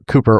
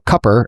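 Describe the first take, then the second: First: The first vowel is a long oo sound. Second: The first vowel is a short, clipped sound.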